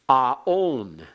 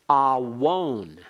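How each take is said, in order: First: The vowels run together with no consonant between. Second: A w sound comes between the two vowels. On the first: The letter is treated as part of the vowel. "pronounced only as on, a-on" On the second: The letter is treated as a consonant. "alternatively pronounced awon"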